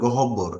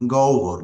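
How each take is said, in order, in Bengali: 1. একটি অতিরিক্ত স্বরধ্বনি আর ব-এর দ্বিত্ব উচ্চারণ শোনা যাচ্ছে। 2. কোনো অতিরিক্ত স্বরধ্বনি নেই, ব-এর উচ্চারণ একক। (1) "অনেকেই এটার উচ্চারণ করে গহব্বর" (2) "উচ্চারণ হবে গহ্বর"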